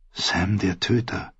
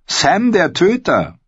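First: Leise vor sich hin gesprochen; leise, ungläubig. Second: Hoch und langsam ausgerufen; bemüht fröhlicher Ausruf. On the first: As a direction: sag den Beinamen leise für dich. Jon wiederholt den Beinamen nachdenklich. (leises, nachdenkliches Wiederholen) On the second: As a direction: ruf den Beinamen feierlich, hoch gezogen. Gren ruft den Beinamen bemüht fröhlich. (gedehnter, hoher Ausruf) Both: A narrator's reading.

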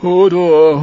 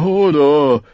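First: Loud, high terrified cry; simple giant wailing in terror; frightened wail. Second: Frightened giant calming down; fading frightened whimper. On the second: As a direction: let the fright trail off. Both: A narrator's reading. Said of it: "Hodor jammerte entsetzt".

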